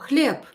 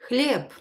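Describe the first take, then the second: First: The word ends in a voiceless p sound. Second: The same.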